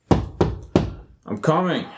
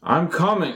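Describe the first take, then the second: First: Slow, drawn-out call toward the door. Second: Higher, louder impatient shout. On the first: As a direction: stretch it out, calling from across the room. Called through door, knocking. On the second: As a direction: yell it at the door. Visitor pleads, he shouts back. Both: Acted.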